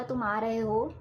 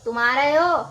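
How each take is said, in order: First: Easy, gentle question; relaxed and friendly asking; calm. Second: Loud angry demand. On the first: Teacher repeats the calm example for students, gentle. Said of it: "मैंने बहुत ही आराम से बोला". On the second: Teacher repeats the angry example, loud and angry. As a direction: fling it out in anger. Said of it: "अब मैंने गुस्से में बोला". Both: Shown as a demonstration.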